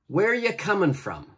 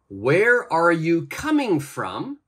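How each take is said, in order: First: 'Are you' blends together and the final G drops. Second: Every word is said fully and clearly.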